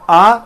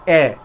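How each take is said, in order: First: The vowel is an open 'ah' sound. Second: The vowel is a closed 'ay' sound. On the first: "आ का जो sound होता है वो Britishers देते हैं" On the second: "ए का जो साउंड होता है वो हमारे अमेरिकन देते हैं"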